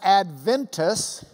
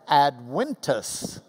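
First: The word is said with a V sound. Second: The word is said with a W sound. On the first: The speaker calls it wrong. "That is not Adventus. Don't say that" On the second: The speaker calls it right. "Latin V's are pronounced like a W"

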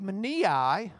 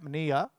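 First: The word ends with an extra final vowel sound. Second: The word ends without the extra final vowel.

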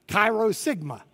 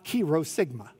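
First: The first word sounds like 'kai'. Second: The first word sounds like 'key'. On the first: The speaker calls it right. "Anybody who's been in a fraternity or a sorority pronounces it chi" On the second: The speaker calls it wrong. "people don't pronounce this as key"

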